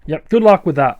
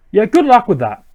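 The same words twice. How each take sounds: First: Said in the usual way. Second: Higher, dismissive taunt; scoffing. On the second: Acted. Player answering Team Plasma's threat, scoffing and higher. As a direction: toss it back as a scoff.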